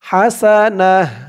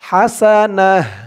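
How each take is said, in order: First: The word ends with a soft h sound. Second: The same.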